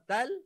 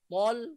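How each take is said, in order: First: The T sound is light and thin. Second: The T sound is heavy and thick. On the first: The speaker calls it wrong. "Kalau tal huruf ta" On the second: The speaker calls it right. "Kalau tol, huruf ta"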